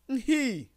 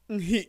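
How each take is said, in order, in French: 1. Elle se prononce sans coup de glotte. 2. Elle se prononce avec un coup de glotte. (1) "Avec la nasalisation" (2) "Avec le coup de glotte"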